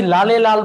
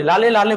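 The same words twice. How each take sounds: First: লালে লাল said as a mistaken take, final ে dropped from the second word; a misspoken লালে লাল before the correction; slip of the tongue. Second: লালে লালে with the ে ending clearly said on both words; corrected phrase. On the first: Teacher misspeaking an example phrase, a slip before correcting. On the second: Teacher correcting her own slip, a corrected example phrase. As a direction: repeat it right as লালে লালে. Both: Shown as a demonstration. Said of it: "বললাম, sorry".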